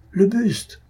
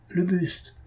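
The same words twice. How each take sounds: First: Alarmed shout. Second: A higher, softer gasped cry of alarm; first startled call, caught in the throat. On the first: A student shouting to the others at the ghastly bust, full alarm. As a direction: let the second call ring out in alarm. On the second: A student spotting the green bust, startled half-cry. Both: A narrator's reading. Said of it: "une voix s'écria".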